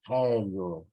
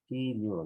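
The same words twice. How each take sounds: First: Helio with an open e, eh-lyo; correct pronunciation. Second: Hilio said with a closed i, ee-lyo; wrong pronunciation. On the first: Teacher models the correct helio with an open e. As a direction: say helio clearly starting on e. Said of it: "No es helio". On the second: Teacher shows the pronunciation to avoid, Hilio with i. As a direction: demonstrate the wrong form, Hilio with i not e. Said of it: "evitar ya la pronunciación de Hilio". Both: Shown as a demonstration.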